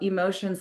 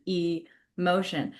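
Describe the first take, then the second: First: Said in the usual way. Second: "emotion" drawn out slowly as E, then motion; split word. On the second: Shown as a demonstration. Explaining the yoga teacher's wordplay, "emotion" split slowly into E-motion. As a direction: stretch "emotion" into two parts, "ee... motion". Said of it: "energy in motion".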